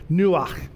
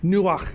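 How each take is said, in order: First: Nuach said noo-AHKH, ending in a rasp at the back of the throat; Hebrew pronunciation. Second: Nuach in two syllables, noo then a throaty AHKH; Hebrew pronunciation. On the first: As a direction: say nuach with a guttural kh at the end. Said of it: "If you got something in the back of your throat". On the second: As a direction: give Nuach its guttural Hebrew ending. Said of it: "you can pronounce it great". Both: Shown as a demonstration.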